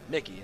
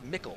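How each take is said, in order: First: The name ends with an 'ee' sound. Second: The name ends with an 'l' sound. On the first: The speaker calls it wrong. "not Mickey" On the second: The speaker calls it right. "It's Mickle"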